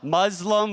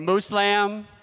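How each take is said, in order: First: The middle consonant is a z sound. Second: The middle consonant is an s sound.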